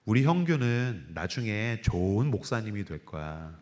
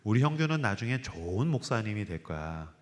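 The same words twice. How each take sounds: First: Soft, slow, lower voice of a praying mother; gently foretell, stroking his hair; mother's tender words. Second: Soft, lower voice repeating the promise; quietly insist, like a prayer; mother's tender words. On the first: (아들 머리 빗기며 하는 어머니의 부드럽고 느린 말) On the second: (확신을 담아 조용히 되풀이하는 어머니의 목소리) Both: Retold or imitated. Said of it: "저한테 이렇게 얘기하셨어요".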